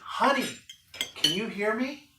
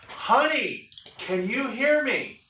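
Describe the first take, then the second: First: It is said at a normal, softer volume. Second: It is said noticeably louder.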